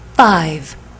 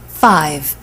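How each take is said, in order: First: The pitch falls at the end of the word. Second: The pitch stays level across the word.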